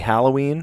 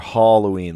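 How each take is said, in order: First: The first vowel sounds like the one in hat. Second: The first vowel sounds like the one in hollow. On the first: "ha, like hat" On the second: "like hollow"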